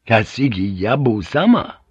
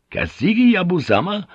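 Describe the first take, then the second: First: Insistent naming of a lord; samurai assertion. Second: Much higher, incredulous question; scornful echo. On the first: Samurai refusing the pilot by naming his lord, insistent. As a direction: state the name as final authority. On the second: Pilot challenging the samurai over whose lord is bigger, scornful. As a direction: throw the name back as a challenge. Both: Acted.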